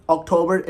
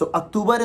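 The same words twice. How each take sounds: First: October as ok-TOH-ber; English October, ok-TOH-ber; correct pronunciation. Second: October as ak-TOO-bar; Urdu-style October, ak-TOO-bar; wrong pronunciation. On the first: Teacher contrasting right with wrong, October as ok-TOH-ber. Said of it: "October is correct". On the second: Teacher contrasting wrong with right, October as ak-TOO-bar. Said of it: "October is wrong". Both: Shown as a demonstration.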